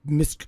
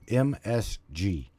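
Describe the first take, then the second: First: The last letter is said with a c sound. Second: The last letter is said with a hard g sound. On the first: The speaker calls it wrong. "she can't pronounce it right, so she's like M S C" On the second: The speaker calls it right. "the abbreviation that she just got hung up on was called M S G"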